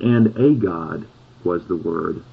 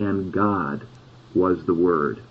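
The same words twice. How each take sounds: First: Slow, with "a" set apart and stressed as "ay", the wrong reading. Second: Said in the usual way. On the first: Shown as a demonstration. Preacher showing the congregation a wrong translation, stressing "a". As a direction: lean hard on "a" in "And a God was the Word" to show the faulty version. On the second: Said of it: "but simply".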